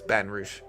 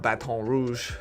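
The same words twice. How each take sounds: First: Pronounced the way Louisiana locals say it. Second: Pronounced the way outsiders to Louisiana say it. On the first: The speaker calls it right. "It's Baton Rouge" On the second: The speaker calls it wrong. "It's not Baton Rouge"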